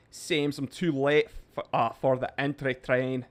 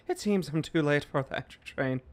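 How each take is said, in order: First: A touch of put-on Irish; light Irish accent. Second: Put-on Irish accent, running straight through; Tom Mulrooney. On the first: Streamer reading Seamus's chat comment in a light Irish accent. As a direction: read it out in a mild Irish accent. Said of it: "a little bit of an accent". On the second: Streamer rereading a chat comment as another Irishman, Irish accent. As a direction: read it as a mock Irishman. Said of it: "That was Tom Mulrooney".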